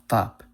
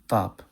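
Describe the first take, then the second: Both takes have the same delivery.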